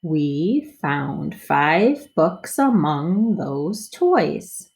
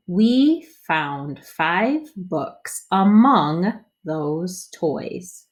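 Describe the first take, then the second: First: Smoother reading. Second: Slow, word by word; slow choppy reading. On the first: Teacher models smoother second read for kids. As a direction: read it through more smoothly. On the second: Teacher models first slow read for kids. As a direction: read each word apart, slowly. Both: Shown as a demonstration. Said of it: "read it a little smoother".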